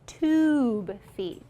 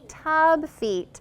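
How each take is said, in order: First: The vowel in the first word is long. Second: The vowel in the first word is short. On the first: The speaker calls it right. "that makes the U give it a long vowel sound" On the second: The speaker calls it wrong. "I heard some students say tub feet"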